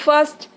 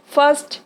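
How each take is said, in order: Both takes have the same delivery.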